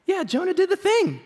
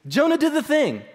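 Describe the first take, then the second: First: Bright, high mock celebration of Jonah; mock cheer. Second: Jonah "did" the thing, "did" hit hard and falling; stress on did. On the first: Preacher mock-cheering Jonah's obedience, higher and excited. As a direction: cheer it like a kid who did his chores. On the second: Shown as a demonstration. Preacher insisting Jonah obeyed, weight on "did". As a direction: lean on "did", firm and certain. Repeats with emphasis.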